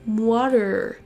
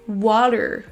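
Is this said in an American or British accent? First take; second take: American; American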